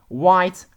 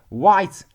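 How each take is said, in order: The two takes are said the same way.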